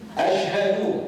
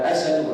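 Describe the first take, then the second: First: The middle consonant is a clear sh sound. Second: The middle consonant is a plain s sound. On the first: The speaker calls it right. "ini lidah betul-betulkan" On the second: The speaker calls it wrong. "walaupun mungkin tak boleh nak sebut dalam keadaan tepat"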